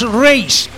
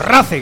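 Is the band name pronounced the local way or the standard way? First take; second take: standard; local. First: The name is pronounced the usual standard way. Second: The name is pronounced the local village way.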